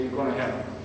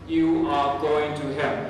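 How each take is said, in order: First: 'You are' is contracted into one syllable. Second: 'You are' is said as two full words. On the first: "and I say" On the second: "sometimes we say"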